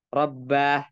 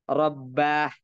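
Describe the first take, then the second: The two takes are said the same way.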